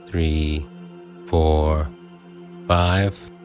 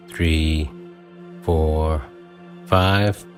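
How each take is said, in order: Both takes have the same delivery.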